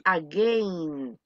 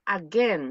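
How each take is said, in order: First: "again" drawn out as "a-gain", with the I sounded; mispronounced "again". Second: "again" ending in a short "-gen", no I sound; correct "again". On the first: Teacher showing the form to avoid, slow "again" with an I. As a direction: stretch "again" into a slow "a-GAYN". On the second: Teacher showing students how the word sounds, short-vowel "again". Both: Shown as a demonstration. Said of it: "La I en este caso desaparece".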